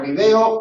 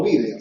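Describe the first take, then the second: First: "video" as vi-DE-o; stress on DE. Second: "vídeo" as VÍ-de-o; Spain's "vídeo", stressed on VÍ. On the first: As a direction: hit the middle syllable of "video". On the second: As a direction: hit the first syllable of "vídeo". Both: Shown as a demonstration. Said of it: "acentuación y pronunciación distinta".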